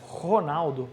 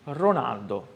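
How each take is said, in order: First: Ronaldo with a throaty Brazilian R; Brazilian guttural R. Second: Ronaldo with a tapped Italian R. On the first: Teacher showing the Portuguese R in his name. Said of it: "O som do R". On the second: Teacher showing how Italians say his name. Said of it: "os italianos me chamam sempre". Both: Shown as a demonstration.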